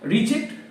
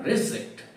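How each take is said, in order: First: The stress is on the second syllable. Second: The stress is on the first syllable. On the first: It is the verb, meaning to refuse something. "Reject with the stress on the second syllable" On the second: It is the noun, something not accepted. "The noun a reject has the stress on the first syllable"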